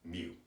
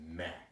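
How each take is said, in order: First: The vowel is long, like 'mew'. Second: The vowel is short, like 'meh'. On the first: This is how statisticians pronounce it. "statisticians pronounce that Mew" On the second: This is the Greek pronunciation. "he pronounced it meh, like almost like M E H"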